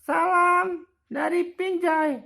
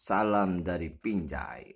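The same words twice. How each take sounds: First: Very high, louder squeaky greeting; squeaky toy voice. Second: Said in the usual way. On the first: Pretend. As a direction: greet like a tiny cartoon toy. Voicing Ipin toy greeting.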